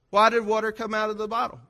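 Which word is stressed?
come out. The stress is on "come out".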